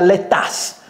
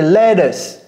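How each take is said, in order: First: The second syllable sounds like 'ass'. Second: The second syllable sounds like 'us'. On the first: The speaker calls it wrong. "on ne dit pas lettuce" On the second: The speaker calls it right. "C'est lettuce. Us"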